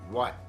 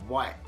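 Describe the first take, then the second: No difference in how they are said.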